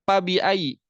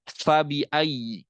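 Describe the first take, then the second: First: The first sound is a p made with both lips. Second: The first sound is an f using teeth and lip. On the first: The speaker calls it wrong. "menempelkan dua bibir" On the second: The speaker calls it right. "mengandalkan ujung gigi seri atas dan bibir badan bawah"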